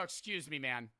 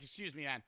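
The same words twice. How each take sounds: First: Gently said, much softer; soft polite. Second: Quiet, calm, not mad; polite and unbothered; soft polite. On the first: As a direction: say it softly and politely. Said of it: "And I say it like that". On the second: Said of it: "I'm not mad". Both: Retold or imitated.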